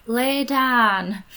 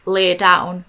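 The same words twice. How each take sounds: First: "Lay down" with a Yorkshire flat "dan", a bit higher; Yorkshire accent. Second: Said in the usual way. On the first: Retold or imitated. Telling her game dog to lie down in a Yorkshire accent. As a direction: say "Lay down" the Yorkshire way, short open vowel. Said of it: "in my accent". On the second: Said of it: "getting your dog to learn the command".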